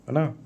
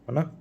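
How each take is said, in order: No difference in how they are said.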